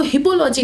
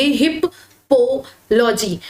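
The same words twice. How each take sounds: First: Said in the usual way. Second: हिप, पो, logy with a pause after each part; teacher's chunked reading, हिप; broken into parts. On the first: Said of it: "हिपोलॉजी नहीं पढ़ना है". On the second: Shown as a demonstration. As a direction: slowly split the word into हिप... पो... logy. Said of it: "अब आप इसको पढ़ोगे".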